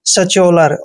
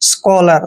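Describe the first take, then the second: First: The middle consonant is said as 'ch'. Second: The middle consonant is said as 'k'. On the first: The speaker calls it wrong. "दोनों ही word गलत read किए हैं" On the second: The speaker calls it right. "सी एच का उच्चारण हमने ध्यान रखना है, कै करना है"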